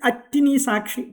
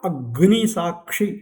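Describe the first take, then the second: First: A t-like sound replaces the g before ni. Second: A clear g sound comes before ni. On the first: The speaker calls it wrong. "அட்டி அட்டினி சாட்சி டுனாக்கம் சொல்கிறான்" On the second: The speaker calls it right. "அக்னி சாட்சி என்ன சொல்லலாம்"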